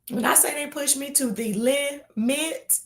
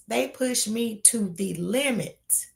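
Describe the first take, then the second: First: Said in the usual way. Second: "they push me to the limit" said slow, "they" leaned on; slow emphatic repeat. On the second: Shown as a demonstration. Repeating to her viewers how the gnats get to her, slow and emphatic.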